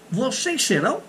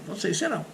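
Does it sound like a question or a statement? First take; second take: question; statement. First: It is said with question intonation. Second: It is said with statement intonation. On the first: It asks a question. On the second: It states a fact.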